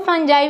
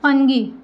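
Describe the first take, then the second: First: It has a j sound and ends in eye. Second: It has a hard g and ends in ee. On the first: "फंजाई भी बोल सकते हैं" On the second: "फंगी भी बोल सकते हैं"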